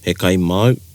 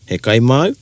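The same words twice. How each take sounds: First: The pitch falls at the end of the question. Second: The pitch rises at the end of the question. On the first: The speaker calls it right. "te pata i roto i te reo should go down" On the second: The speaker calls it wrong. "instead of"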